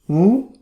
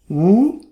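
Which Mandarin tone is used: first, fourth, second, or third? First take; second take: second; second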